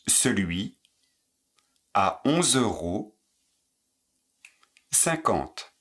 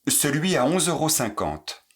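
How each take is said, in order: First: The phrase is said at a slow pace. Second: The phrase is said at a fast pace. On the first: "Moins vite" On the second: "Plus vite"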